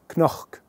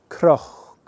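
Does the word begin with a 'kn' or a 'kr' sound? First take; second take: kn; kr. First: The word starts with a k-n sound. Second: The word starts with a k-r sound. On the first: The speaker calls it wrong. "Try saying this with a C N sound" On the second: The speaker calls it right. "It just flows better"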